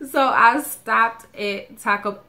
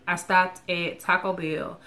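First: Slow, louder mock Spanish accent on Taco. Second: Said in the usual way. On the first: Telling viewers about her Taco Bell stop, in a playful mock Spanish accent. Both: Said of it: "I have to say it with the accent".

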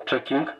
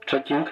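The two takes are said the same way.

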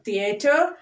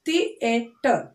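First: Said in the usual way. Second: THEATER broken as thi, e, ter; three separate beats on THEATER; split into syllables. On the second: Shown as a demonstration. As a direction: say THEATER one syllable at a time. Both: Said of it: "Three syllable words".

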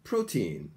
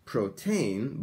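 First: Put-on "protein" said as PRO-teen, with a long "ee"; slow, clear "protein" ending in "teen"; correct English pronunciation. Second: "protein" said as pro-TAYN, second vowel like "tain"; the wrong "protein", slow, ending in "tain"; katakana-style mispronunciation. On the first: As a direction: model "protein" with stress on PRO and a falling "teen". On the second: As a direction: drag out "protein" with an "ay" in the last syllable. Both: Shown as a demonstration. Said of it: "Not protein, but protein".

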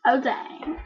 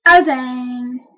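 First: Said in the usual way. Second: Oh dang with a louder oh. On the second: Shown as a demonstration. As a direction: push out the oh.

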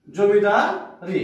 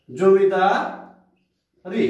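First: zamindari repeated very slowly, a little quicker than the first take, the ই still clear. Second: zamindari stretched very slowly, slightly louder, with the final ই held; drawn out demo word. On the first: Teacher repeating zamindari slowly for students so the ই ending comes through. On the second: Teacher stretching zamindari so students hear its ই ending. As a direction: stretch zamindari and let the ই linger. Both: Shown as a demonstration. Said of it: "ই উচ্চারণ করছি".

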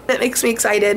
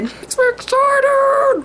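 First: Said in the usual way. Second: High, slow, squealy sing-song; squealing excited. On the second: Pretend. Vlogger squealing over her new red hair. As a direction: squeal it out like a giddy kid. Giddy repeat of own line.

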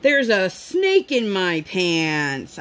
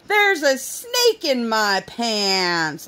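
First: Put-on slow, sing-song kid voice; lightly voiced little girl; imitating daughter. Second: Put-on slow, drawn-out kid voice; a hint of a teasing child; imitating daughter. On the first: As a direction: draw it out like a giggly toddler. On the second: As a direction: stretch each word like a silly toddler. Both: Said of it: "she proceeded to keep going".

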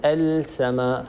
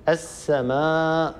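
First: السماء said slowly with the L of the article sounded before s; wrong pronunciation. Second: السماء drawn out slowly with the L merged into a doubled s; correct assimilation. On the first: Tajweed teacher shows what not to say, L sounded in السماء. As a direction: say "al-samaa", a clear L left unmerged in السماء. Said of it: "ولا نقول". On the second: Tajweed teacher models lam merged into seen, slow "as-samaa" in السماء. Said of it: "أن تدغم اللام في السين". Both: Shown as a demonstration.

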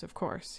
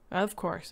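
First: Softer, soothing repeat. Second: Said in the usual way. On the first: A narrator's reading. Husband soothing his frightened wife, softer. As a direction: pat her with the words. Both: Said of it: "he patted her".

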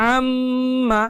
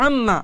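First: আম্মা with the মম humming through the nose; held nasal ghunnah. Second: আম্মা with a quick clipped মম, no hold; wrong short take of আম্মা; short ghunnah, wrong way. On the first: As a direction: draw out the nasal hum in আম্মা. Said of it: "অনেক বেশি সময় দিয়েছি". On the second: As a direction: say আম্মা fast without the nasal hum. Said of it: "শুধুমাত্র আম্মা এতটুকু সময় না দিয়ে". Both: Shown as a demonstration.

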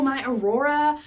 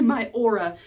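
First: Saying "my Aurora" as a-ROAR-a, the dawn name, in place of aura; wrong word Aurora. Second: "My aura." said OR-a, two syllables, loud and pleased; correct word aura. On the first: Retold or imitated. Telling husband about her good mood, says "my Aurora" instead of aura. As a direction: blurt out "my Aurora" with full confidence, a slip. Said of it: "I don't think Aurora is the word you're looking for".

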